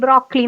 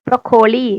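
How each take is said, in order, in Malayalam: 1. ഈ വാക്ക് രണ്ട് സിലബിൾ മാത്രമായി പറയുന്നു. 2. ഈ വാക്ക് മൂന്ന് പൂർണ സിലബിൾ ആയി പറയുന്നു. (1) "നമ്മൾ ബ്രോക്ലി ബ്രോക്ലി എന്നാ പറയുള്ളൂ" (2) "എഴുതുമ്പോ ബ്രൊക്കോളി എന്നാണ് എഴുതുക"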